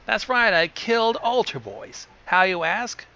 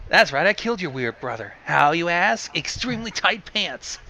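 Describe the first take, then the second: First: Lightly put-on raspy voice, pitched up; a hint of rasp on a higher-pitched brag; thick raspy voice. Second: Chicago gangster voice. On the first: A narrator's reading. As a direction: boast with a touch of thick rasp. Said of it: "said in a thick, raspy voice". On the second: Acted. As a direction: talk like a Chicago mob boss. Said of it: "in her best Chicago gangster voice".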